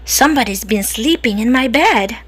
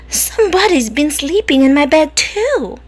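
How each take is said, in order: First: It is said in a deep, growly voice. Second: It is said in a soft, medium voice.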